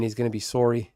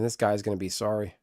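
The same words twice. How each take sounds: First: "sorry" with a Canadian rounded SORE-ee vowel; Canadian accent. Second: Said in the usual way. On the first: Pretend. Streamer joking about a Canadian opponent, "sorry" in Canadian accent. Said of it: "If he's Canadian".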